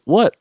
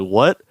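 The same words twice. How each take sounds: First: Higher, innocent What; the student's innocent, higher What back at the teacher; playing innocent. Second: Lower, flat puzzled What; a teacher baffled mid-lesson; the teacher's low confused What. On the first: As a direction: feign innocence. And I'm like. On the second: Retold or imitated. Teacher would look at me like.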